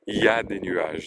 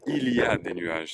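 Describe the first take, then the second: First: The opening il is dropped entirely. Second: The opening il is pronounced in full. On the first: The speaker calls it right. "donc le il n'apparaît pas" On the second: The speaker calls it wrong. "ce n'est pas il y a des nuages"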